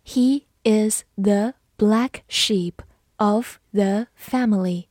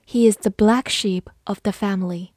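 First: Slow, word-by-word reading; deliberate teacher pace, pausing between words; slow model reading. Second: Said in the usual way. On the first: Shown as a demonstration. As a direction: space out each word for learners. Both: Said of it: "好，慢慢来读".

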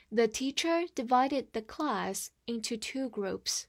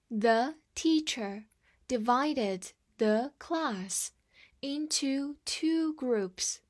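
First: Said in the usual way. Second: Slow, word-by-word model reading. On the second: Shown as a demonstration. Teacher slowly models the sentence for students, slow and clear. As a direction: read it slowly for the class to follow. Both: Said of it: "我们再读一遍".

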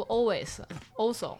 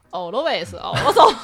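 First: Said in the usual way. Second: Always and also drawn out slowly, mock teacher style; imitating a teacher's odd English; teacher's mispronunciation. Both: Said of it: "每次读always，also都读成".

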